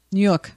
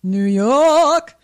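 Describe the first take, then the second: First: Said in the usual way. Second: New York accent, drawn-out York; thick New York accent. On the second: Shown as a demonstration. Co-host says it on request, hammed-up New York accent. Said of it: "Say, uh, New York".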